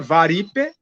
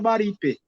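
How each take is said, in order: First: The name begins with a V sound. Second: The name begins with a B sound. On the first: This is how the name was written in documents. "a gente encontra o nome da Chapada escrita com V" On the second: This is how the name was actually pronounced. "mas a pronúncia era Baripe"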